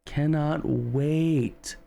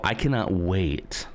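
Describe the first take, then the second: First: High, very drawn-out "cannot wait"; eager emphasis. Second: Said in the usual way. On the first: Real, not acted.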